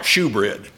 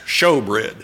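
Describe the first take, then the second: First: The first syllable rhymes with do. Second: The first syllable rhymes with go. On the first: The speaker calls it wrong. "It's not shoebread" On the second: The speaker calls it right. "it's pronounced showbread"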